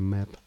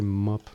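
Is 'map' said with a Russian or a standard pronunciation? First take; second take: standard; Russian. First: The word has a standard pronunciation. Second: The word has a Russian-style pronunciation. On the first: The speaker calls it right. "but it's actually map" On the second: The speaker calls it wrong. "I say map because I'm Russian, and this is how we pronounce it in Russia"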